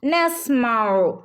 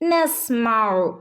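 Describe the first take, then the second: Both takes have the same delivery.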